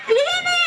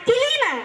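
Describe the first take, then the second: First: The k and l are joined without a vowel. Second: An extra vowel separates the k and l. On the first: The speaker calls it right. "ಕಿಲೀನಲ್ಲ ಕ್ಲೀನ್" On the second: The speaker calls it wrong. "ಕಿಲೀನಲ್ಲ"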